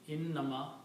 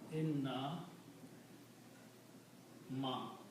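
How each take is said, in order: First: It is said as one unbroken word. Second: It is split into two separate parts. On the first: It means only. The speaker calls it right. "this should be regarded as one word" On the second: It means indeed not. The speaker calls it wrong. "if you break it down"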